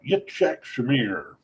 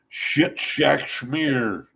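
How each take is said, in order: First: The name begins with a 'y' sound. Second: The name begins with a 'sh' sound. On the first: The speaker calls it right. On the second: The speaker calls it wrong.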